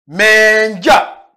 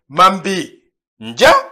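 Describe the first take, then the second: First: The subject and auxiliary are merged into one syllable. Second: The subject and auxiliary are said in full. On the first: This is the shortened form used in other dialects. "Il contracte le sujet et l'auxiliaire" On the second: This is the complete form kept in one dialect. "au lieu de Mambi Ndja"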